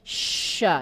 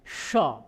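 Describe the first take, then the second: First: The sh sound is thin with breath spreading out. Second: The sh sound is thick and heavy. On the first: The speaker calls it right. "ini nyebar" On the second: The speaker calls it wrong. "salah kalau shin itu dibaca dengan tebal"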